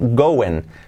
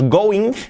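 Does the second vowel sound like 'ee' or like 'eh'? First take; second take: eh; ee. First: The second vowel is an 'eh' sound. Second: The second vowel is a clear 'ee' sound. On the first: The speaker calls it right. "La I como una E, go-en. Y la G del final casi no se pronuncia" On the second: The speaker calls it wrong. "No es going, no"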